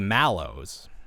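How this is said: The first vowel sounds like 'a' in 'cat'. This is the British way, respecting the spelling. "you respect the A. You say mallows"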